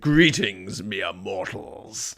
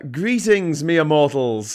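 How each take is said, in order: First: It is said in a theatrical put-on voice. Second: It is read out in a normal voice.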